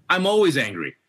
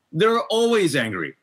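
First: Said in the usual way. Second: "always" drawn out, higher and slow; stress on always. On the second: Acted. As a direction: lean hard on "always", slowly. Repeats the quote with emphasis.

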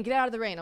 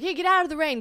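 First: Said in the usual way. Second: Called out higher and louder; calling out. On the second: Retold or imitated. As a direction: wave her in from the rain. Bert calls her in from rain.

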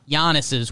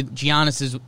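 First: "Giannis's" starting with a Y sound; pronounced with a Y. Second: "Giannis's" with a hard J sound at the start; pronounced with a J. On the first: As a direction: start "Giannis's" like "yah", as in Yahn-iss. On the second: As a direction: start "Giannis's" like "gee", as in Gee-ahn-iss. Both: Real, not acted. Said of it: "got mad at me for saying Giannis".

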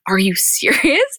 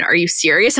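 First: Slow, drawn-out disbelieving question; incredulous disbelief. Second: Said in the usual way. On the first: Retold or imitated. Host reacting to Scott's proposal, slow drawn-out disbelief. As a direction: stretch it out, can't believe it. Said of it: "And I'm like". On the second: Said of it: "Courtney's surprised reply to proposal".

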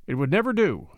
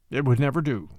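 First: Firm, final, NEVER pressed down; decisive. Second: Lower, easy echo of agreement; agreeing. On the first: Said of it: "he said decisively". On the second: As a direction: repeat it back, simply concurring. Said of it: "Matt concurred". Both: A narrator's reading.

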